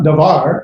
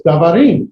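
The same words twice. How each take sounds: First: Davar said evenly, without the plural's -im ending; singular stress, contrasted. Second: Davarim with its last syllable lifted and stressed; stress on the end of Davarim. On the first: Teacher contrasts singular with plural, Davar as the rejected stress. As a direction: give Davar as the form to avoid. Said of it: "but the emphasis is gonna be Davarim". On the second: Teacher corrects toward the plural, Davarim stressed on its ending. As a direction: punch the final syllable of Davarim. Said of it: "you're gonna emphasize the end of the word". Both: Shown as a demonstration.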